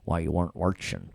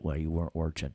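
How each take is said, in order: First: It is said in a New York accent. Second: It is said in a neutral accent.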